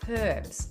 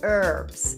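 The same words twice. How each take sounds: First: The word is said in a non-American accent. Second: The word is said in an American accent.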